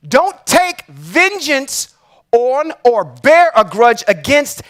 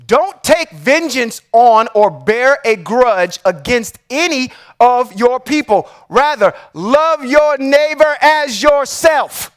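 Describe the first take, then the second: First: Said in the usual way. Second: Slow, deliberate reading, each word weighed; read slowly. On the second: Shown as a demonstration. Reading a verse he calls Christ's words, slow and deliberate. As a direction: lay out every word slowly and carefully. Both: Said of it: "I'm gonna read this slow".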